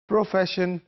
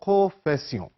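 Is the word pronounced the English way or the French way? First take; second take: English; French. First: The word is pronounced the English way. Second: The word is pronounced the French way. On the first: "same word in English" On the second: "pronounce it in different way"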